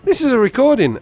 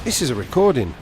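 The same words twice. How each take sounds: First: High, loud incredulous cry; amazed realisation. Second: Understated moment of realisation; dawning realisation. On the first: Caller realising he's been pranked, loud incredulous realisation. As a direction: exclaim it as the prank fully sinks in. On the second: Caller realising the prank, understated realisation. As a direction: let the penny drop, near the usual voice. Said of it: "And I thought". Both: Retold or imitated.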